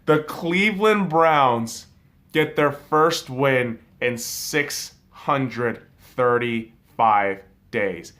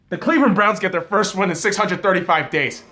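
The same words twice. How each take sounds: First: Very slow, emphatic, with pauses between words; letting it sink in. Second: Loud, high, fast burst of big news; excited announcement. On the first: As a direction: spell out the news word by word. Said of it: "can we let that shit settle in". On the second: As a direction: blurt out the huge news loudly. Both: Real, not acted.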